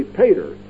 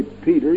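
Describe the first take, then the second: First: "pater" with an ay sound, PAY-ter; pater with long A. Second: "Peter" with a long ee in the first syllable. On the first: Preacher showing how to say it, "pater" with long A. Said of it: "you say pater". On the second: Preacher showing how not to say it, "Peter" with long E. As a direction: say "Peter" as PEE-ter. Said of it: "You don't say Peter". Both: Shown as a demonstration.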